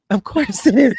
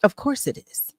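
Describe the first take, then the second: First: Louder, laughing through the words; laughing repeat. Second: Said in the usual way. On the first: Real, not acted. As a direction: repeat it again, now laughing.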